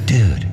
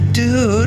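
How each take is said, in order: First: It is said in a hushed, secretive way. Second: It is said with embarrassed annoyance. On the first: A secret is about to be shared. "if he had a secret he was going to tell you" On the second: You should not have walked in. "If you'd walk into him on the bathroom"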